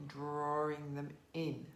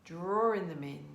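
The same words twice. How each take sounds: First: Drawing them in, said softer and slower; drawing them in, eased out quietly and slowly; softer, slower repeat. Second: Said in the usual way. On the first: Shown as a demonstration. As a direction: let the repeat fade gently.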